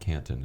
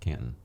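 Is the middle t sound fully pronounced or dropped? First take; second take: full; dropped. First: The middle t is pronounced fully. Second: The middle t is cut short or dropped. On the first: "Canton is not Canton" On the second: "we shorten things like"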